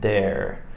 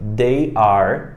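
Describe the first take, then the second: First: The words merge into one short syllable. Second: Two separate words are said in full.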